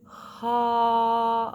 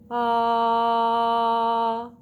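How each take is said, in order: First: The vowel starts with a breathy puff of air. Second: The vowel starts smoothly, breath and voice together. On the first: The speaker calls it wrong. "not ha of an aspirate onset" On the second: The speaker calls it right. "A balanced onset is going to sound like ah"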